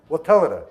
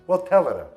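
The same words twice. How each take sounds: Both takes have the same delivery.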